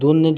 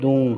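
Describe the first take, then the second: First: The final n is a clear n sound. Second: The final n is hidden in a nasal hum. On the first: The speaker calls it wrong. "দুনের জায়গায়" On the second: The speaker calls it right. "দুং হবে"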